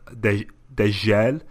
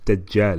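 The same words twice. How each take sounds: First: The j is a soft zh sound. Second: The j is a hard, doubled sound. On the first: The speaker calls it wrong. "I was saying Dajjal" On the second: The speaker calls it right. "It's Dajjal, isn't it?"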